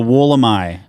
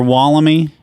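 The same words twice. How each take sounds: First: Wollemi is said the Australian way. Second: Wollemi is said in a non-Australian way. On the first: The speaker calls it right. "the Australian pronunciation" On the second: The speaker calls it wrong. "It's not the Wollemi"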